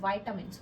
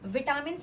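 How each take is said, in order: First: The first syllable is said like 'vye'. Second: The first syllable is said like 'vee'. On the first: The speaker calls it right. "तुम्हें क्या बोलना है, वाइटामिन" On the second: The speaker calls it wrong. "विटामिन नहीं बोलना है"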